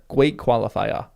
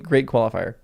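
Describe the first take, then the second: First: "Great" said as "gweat", "qualifier" ending in "-fiah"; mock baby-talk "gweat qualifiah" for "Great qualifier"; playful mispronunciation. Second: Said in the usual way. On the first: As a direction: turn the r in "Great" into w, drop it in "qualifier". Playful repeat, r turned to w.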